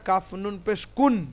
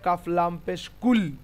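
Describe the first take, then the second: First: The syllable ends with a clear n sound. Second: The syllable ends with an l sound instead. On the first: The nunation is pronounced as written. "এটা হওয়া উচিত" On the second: The n merges into the following l. "কিন্তু লামের সঙ্গে মিলবে"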